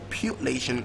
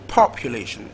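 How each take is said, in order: First: The stress is on the second syllable. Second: The stress is on the first syllable. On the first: "second syllable" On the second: "First syllable"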